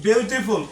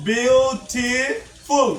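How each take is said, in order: First: Said in the usual way. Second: বিউটিফুল very slow, broken into three syllables. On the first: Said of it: "এটা কোন syllable". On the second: Shown as a demonstration. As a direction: draw out বিউটিফুল with gaps between its three syllables. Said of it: "তাহলে এটা কোন syllable".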